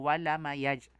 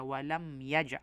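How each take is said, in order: First: A short vowel is added after the m. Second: The m closes with no vowel after it. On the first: The speaker calls it wrong. "Hindi po" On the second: The speaker calls it right. "Kaya walam yaj"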